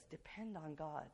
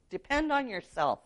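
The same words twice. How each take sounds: First: Sincere biblical counter. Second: Higher, mock-confident voicing of the world's advice; worldly motto. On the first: Retold or imitated. Preacher answering with the Bible, soft and sincere. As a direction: settle it quietly as truth. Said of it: "But the Bible says". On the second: Preacher voicing the world's motto, mock-confident. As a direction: quote the world's slogan a little up. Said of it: "That's what the world preaches".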